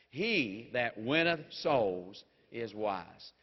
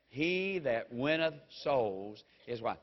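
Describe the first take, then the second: First: It is said with more force and emphasis. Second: It is said in a calm, plain way.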